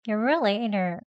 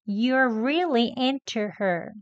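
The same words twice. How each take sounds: First: The t in into is almost silent, only air. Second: The t in into is released clearly and slowly. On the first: "아예 소리는 나오지 않게 공기만 나오도록" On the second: "천천히 into 합니다"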